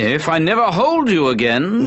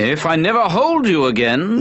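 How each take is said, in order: First: It is said in a put-on British accent. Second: The same.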